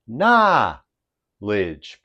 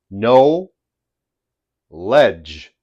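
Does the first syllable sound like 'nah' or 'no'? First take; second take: nah; no. First: The first syllable is a short 'nah' sound. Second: The first syllable is a full 'no' sound. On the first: "when Americans combine these two words, the pronunciation becomes knowledge" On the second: "That's the correct pronunciation"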